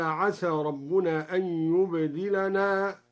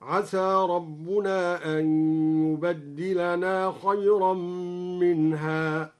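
First: Said in the usual way. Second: "يبدلنا" as yubaddilana, with a doubled d; slow chant-like reading, holding the dal in "يبدلنا". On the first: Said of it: "بتشديد الدال دلالة على التكثير". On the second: Shown as a demonstration. Sheikh demonstrates the variant reading, "يبدلنا" with doubled dal, yubaddilana. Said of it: "بتشديد الدال دلالة على التكثير هكذا".

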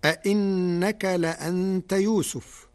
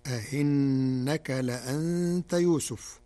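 First: "أئنك" with both hamzas fully stopped; Hafs reading. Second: "أئنك" with the second hamza eased, between hamza and ya, recited slowly; Warsh reading. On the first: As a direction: recite "أئنك لأنت يوسف" with the second hamza clear. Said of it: "قرأ ورش كلمة أئنك". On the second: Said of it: "بتسهيل الهمزة الثانية بين بين". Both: Shown as a demonstration.

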